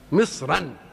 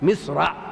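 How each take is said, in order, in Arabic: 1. تنتهي الكلمة بزيادة صوت "-an". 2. تنتهي الكلمة عادي، من غير صوت "-an". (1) "هنا الايه جاءت بمصر منونه" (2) "كل مصر ذكرت ذكرت بغير تنوين"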